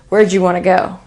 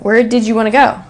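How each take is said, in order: First: 'Did you' blends into a 'j' sound. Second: Every sound of 'did you' is said separately. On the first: The setting is casual. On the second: The setting is formal.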